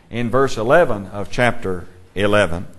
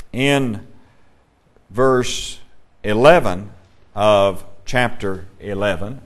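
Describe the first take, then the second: First: Said in the usual way. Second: Slow, word by word with long pauses; deliberate, halting pace on "verse eleven of chapter eleven"; saying it slowly. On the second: Real, not acted. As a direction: space out "in ... verse ... eleven", pausing after each piece. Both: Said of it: "I have to say that slowly".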